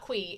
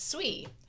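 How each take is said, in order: First: The name starts with a hard k sound. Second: The name starts with a ts sound. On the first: The speaker calls it wrong. "not kui" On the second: The speaker calls it right. "it's ts. like hats or bits or cats"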